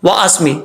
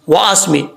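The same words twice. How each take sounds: The two takes are said the same way.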